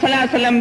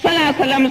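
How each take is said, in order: First: The phrase is slurred into a short clipped form. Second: The same.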